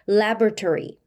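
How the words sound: It is said with native English sounds. The speaker calls it right. "이렇게 발음하는 것이 원어민의 발음입니다"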